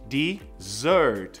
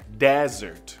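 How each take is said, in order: First: The stress is on the second syllable. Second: The stress is on the first syllable. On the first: It means a sweet course after a meal. "A sílaba tônica é no dessert" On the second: It means a dry sandy region. "a entonação é no D"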